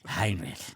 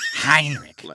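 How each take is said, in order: First: The name is said with a heavy, breathy voice. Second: The name is said in a scornful, contemptuous voice. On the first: "he breathes like this" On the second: "you say it like that. ... With contempt"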